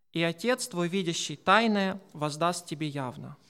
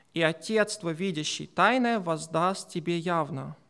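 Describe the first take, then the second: Both takes have the same delivery.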